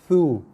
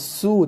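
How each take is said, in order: First: The syllable begins with a th sound. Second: The syllable begins with an s sound. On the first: The speaker calls it right. "tapi thu" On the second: The speaker calls it wrong. "bukan su"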